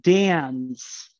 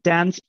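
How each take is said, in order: First: The vowel is raised toward an eh sound. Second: The vowel is low and not raised. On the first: "a very, very much raised eh vowel" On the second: "It's not dance"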